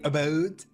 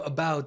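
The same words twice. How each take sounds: First: It is said in an imitated Canadian accent. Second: It is said in a standard, non-Canadian accent. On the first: "Canadians say instead of about, they say about" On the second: "instead of about"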